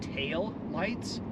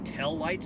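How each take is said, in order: First: It is said in a standard accent. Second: It is said in a local Utah accent. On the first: "instead of tail lights" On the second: "I guess I say tail lights"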